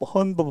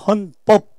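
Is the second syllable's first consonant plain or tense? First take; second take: plain; tense. First: The second syllable starts with a plain b sound. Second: The second syllable starts with a tense pp sound. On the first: It means an old, discarded law. The speaker calls it wrong. "헌법 하면 안 되죠" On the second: It means the constitution. The speaker calls it right. "헌법입니다"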